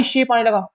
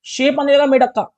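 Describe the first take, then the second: First: Said in the usual way. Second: More excited. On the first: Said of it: "repeats it more excitedly". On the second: Real, not acted. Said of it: "repeated with more excitement".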